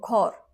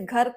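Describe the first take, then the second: First: The first vowel is rounded, like 'o'. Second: The first vowel is a plain short 'a'.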